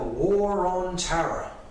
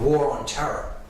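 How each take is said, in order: First: The phrase is said slowly, with Tara clearly spoken. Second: The phrase is said quickly, with Tara sounding like terror.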